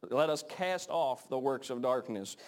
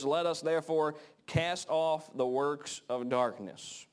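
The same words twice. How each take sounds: First: Slow, settled repeat near normal pitch; slower weighty repeat. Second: Slow and higher, each word weighed; emphatic scripture reading. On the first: Preacher repeating the verse to drive it home, slow and settled. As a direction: bring the verse back down and let it land. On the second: Preacher reading the verse out, higher and slow. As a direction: lift the verse and stretch it out slowly. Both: Shown as a demonstration. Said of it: "and it says".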